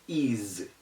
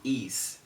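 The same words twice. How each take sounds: First: The s is sounded as a z. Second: The s is sounded as an s. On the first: The speaker calls it right. "such as is" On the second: The speaker calls it wrong. "It's not is"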